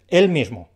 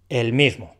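First: "El" stressed, louder. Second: Said in the usual way. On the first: Shown as a demonstration. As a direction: hit "El" hard, as the pronoun. ("El" acentuado y más fuerte) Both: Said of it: "Son diferentes".

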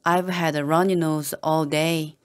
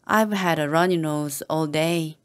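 The two takes are said the same way.

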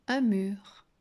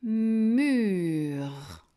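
First: Said in the usual way. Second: "mur" with a long hummed M and drawn vowel; "mur" blended slowly, sound by sound. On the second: Shown as a demonstration. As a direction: stretch "mur" from "mmm" to a long R. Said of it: "je peux la faire chanter longtemps".

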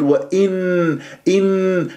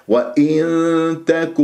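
First: وإن with a full tongue-tip n held; izhar, wrong. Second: وإن تك slowly, nasal held at the t position; hidden noon. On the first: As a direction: press a clear n at the end of وإن. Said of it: "هذا إظهار". (وإن بإظهار النون) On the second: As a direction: hum toward the t in وإن تك, no clear n. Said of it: "لازم تروح إلى مخرج التاء". (وإن تك بإخفاء النون عند التاء) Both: Shown as a demonstration.

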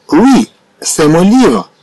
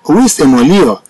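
First: Slow for learners. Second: Said in the usual way. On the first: Shown as a demonstration. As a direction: spell out each word of Oui, c'est mon livre slowly. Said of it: "slow repeat then normal". (نطق بطيء جدا لجملة "Oui, c'est mon livre" ليتعلم التلاميذ) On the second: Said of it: "normal take after slow one".

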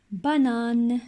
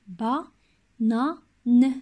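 First: Said in the usual way. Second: Ba-na-ne said syllable by syllable with clear breaks; split into syllables. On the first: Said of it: "Banane contient trois syllabes". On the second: Shown as a demonstration. Teacher showing children the syllables, Ba-na-ne chopped apart. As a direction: clap out each syllable of Ba-na-ne, slowly. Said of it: "trois syllabes".

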